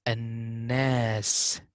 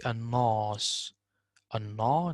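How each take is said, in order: First: "An-nas" with a thin light alif, "an-nes"; right an-nas. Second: "an-nas" with a heavy dark alif, "an-naws"; wrong an-nas. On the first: Tutor to student, modelling the thin alif. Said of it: "Don't say an-nas". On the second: Tutor to student, showing the heavy wrong alif. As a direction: show the darkened "an-nas" as wrong. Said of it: "not good". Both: Shown as a demonstration.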